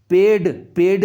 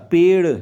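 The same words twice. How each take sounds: First: पेड़ ending in a hard retroflex d; पेड़ with undotted ड sound; wrong hard-d ending. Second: पेड़ ending in a flapped retroflex r; पेड़ with dotted ड़ sound; correct flapped ending. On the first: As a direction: say पेड़ as ped, no flap. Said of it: "नहीं होता". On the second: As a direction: flick the tongue at the end of पेड़. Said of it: "नीचे बिंदी आएगी". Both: Shown as a demonstration.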